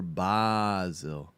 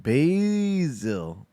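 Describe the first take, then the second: First: "basil" as a drawn-out "BAH-zil"; British pronunciation. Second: "basil" as a long drawn-out "BAAAY-zil"; American pronunciation. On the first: Streamer comparing pronunciations, slow "BAH-zil" for "basil". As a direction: open the first vowel of "basil" to a long "ah". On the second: Streamer comparing pronunciations, slow exaggerated "BAY-zil" for "basil". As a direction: stretch the first vowel of "basil" as "bay". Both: Shown as a demonstration. Contrasts two ways of saying basil.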